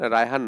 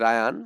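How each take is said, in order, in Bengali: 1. নামটি 'h' ধ্বনি সহ বলা হয়। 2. নামটি 'h' ধ্বনি ছাড়া বলা হয়। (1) "রায়হান না" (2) "রায়ান, রায়হান না, রায়ান"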